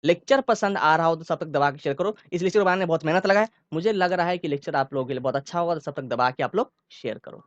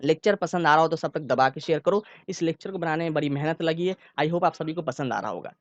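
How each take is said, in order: First: Calm start, fast burst in the middle, then back to calm; speeding up then easing back. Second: Same even speed all through, no rushing; steady even pace. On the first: Teacher demos speaking speed changing mid-sentence for students. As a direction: rush the middle, relax at the ends. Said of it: "अब देखो इसको मैं कैसे बोलूंगा". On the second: Teacher demos one even speaking pace to students. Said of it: "देखो मैं बोल रहा हूँ, सुनो अच्छे से". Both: Shown as a demonstration.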